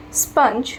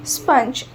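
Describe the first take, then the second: No difference in how they are said.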